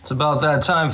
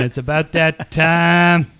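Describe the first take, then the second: First: Dramatic announcer. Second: Drawn-out hype voice; slow dramatic announcer. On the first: Acted. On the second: Retold or imitated. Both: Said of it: "brought a watch in going".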